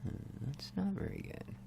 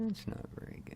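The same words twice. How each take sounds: First: Said in the usual way. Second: Whispered worry to himself. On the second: Real, not acted. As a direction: say it under your breath, unvoiced.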